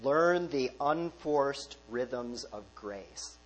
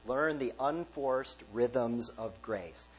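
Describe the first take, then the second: First: Very slow, each word savoured; savoured slow quote. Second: Slow and a little softer, word by word; savoured slow quote. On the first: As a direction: linger over every word of the phrase «Learn the unforced rhythms of grace». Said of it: "I like this phrase". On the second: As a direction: let the phrase «Learn the unforced rhythms of grace» settle gently. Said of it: "Don't you like that phrase". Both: Shown as a demonstration.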